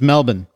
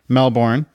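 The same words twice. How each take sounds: First: The last syllable sounds like 'bin'. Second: The last syllable sounds like 'born'. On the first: "M-E-L-B-I-N is how he's pronounced" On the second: "So Jason Bourne"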